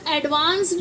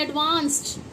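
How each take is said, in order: First: "एडवांस्ड" with a voiced d at the end; wrong d ending. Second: "एडवांस्ड" said as "advaanst"; correct t ending. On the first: Teacher shows wrong reading, एडवांस्ड with d. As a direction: say "एडवांस्ड" as "advaans-d". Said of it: "इसे हम एडवांस्ड नहीं पढ़ेंगे". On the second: Teacher gives correct reading, एडवांस्ड with t. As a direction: end "एडवांस्ड" on t, not d. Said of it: "इसे हम पढ़ते हैं एडवांस्ड". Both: Shown as a demonstration.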